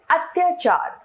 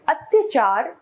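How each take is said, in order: First: Said in the usual way. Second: अत्याचार with short 'tya'; wrong pronunciation. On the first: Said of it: "इसका शुद्ध रूप". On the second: Shown as a demonstration. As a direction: say अत्याचार as at-yuh-chaar. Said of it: "अशुद्ध रूप".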